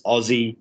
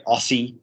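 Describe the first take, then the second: First: Aussie said with a z, like ozzie; correct Aussie. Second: Aussie with a hard s sound, like ossie; wrong Aussie. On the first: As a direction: say Aussie the Australian way, s as a z. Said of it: "The S's are Z's". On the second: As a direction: say Aussie the American way, with an s. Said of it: "It's not Aussie. It's Aussie". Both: Shown as a demonstration.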